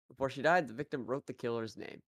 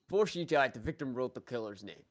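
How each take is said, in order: First: It is said in the speaker's natural voice. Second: It is said in a put-on character voice.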